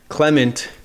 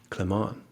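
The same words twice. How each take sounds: First: The name is said with an American accent. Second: The name is said with a French accent. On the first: The speaker calls it wrong. "in my American accent" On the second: The speaker calls it right. "your name is Clement"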